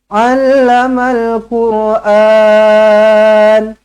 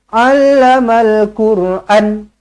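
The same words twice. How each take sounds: First: The final vowel is held long. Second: The final vowel is cut short. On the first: The speaker calls it right. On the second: The speaker calls it wrong. "jangan baca macam tu, salah"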